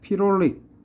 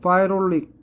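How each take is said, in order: First: The first syllable is said as 'pee'. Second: The first syllable is said as 'pie'.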